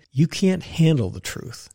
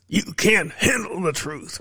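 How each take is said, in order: First: Said in the usual way. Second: Jack Nicholson. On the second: Retold or imitated. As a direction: lean into a light Nicholson impression, slowly. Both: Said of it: "What does Jack say?".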